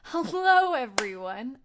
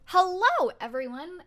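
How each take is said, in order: First: It is said with calmer, lower energy. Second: It is said with very high energy.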